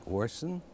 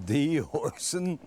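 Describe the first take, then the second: First: Said in the usual way. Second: Higher, louder, slow, with a laugh on "The"; stunned, laughing question; amazed disbelief. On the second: Real, not acted. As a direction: stretch "The Orson?" in delighted shock.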